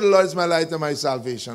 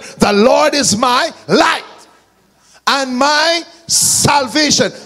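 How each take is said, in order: First: It is read in a flat, bored way. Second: It is proclaimed with strong, confident emphasis.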